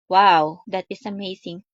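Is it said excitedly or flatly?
flatly. It is said flatly, without any emotion.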